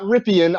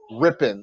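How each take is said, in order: First: The name is said like Ripien. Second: The name is said like Rippon. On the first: The speaker calls it wrong. "It is not Ripien" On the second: The speaker calls it right. "It's Rippon"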